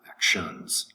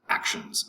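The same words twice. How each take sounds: First: The stress is on the second syllable. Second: The stress is on the first syllable. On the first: The speaker calls it wrong. "not actions" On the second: The speaker calls it right. "the accent is over um, the first first syllable, so it's actions"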